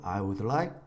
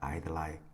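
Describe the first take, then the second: First: Each word is said separately and fully. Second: The first two words merge into one syllable. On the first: "또박또박 I would like 하나하나 단어로" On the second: "축약해서 붙여서"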